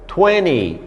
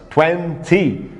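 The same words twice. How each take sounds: First: "twenty" said twenny, N running into the Y; dropped T twenty. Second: "twenty" split into twen-ty with a clear T; careful two-syllable "twenty"; twenty with a break. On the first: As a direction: link the N straight to the Y in "twenty". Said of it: "emendando o N no Y e a pronúncia fica". ("twenty" sem o T, emendando o N no Y) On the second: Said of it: "uma pausa, né, de duas sílabas". ("twenty" em duas sílabas, com o T) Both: Shown as a demonstration.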